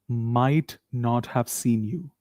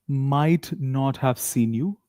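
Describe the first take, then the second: No difference in how they are said.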